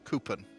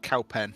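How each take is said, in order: First: The name sounds like 'coupon'. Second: The name sounds like 'cow pen'. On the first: "the people say Coupon" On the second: "spelt Cowpen"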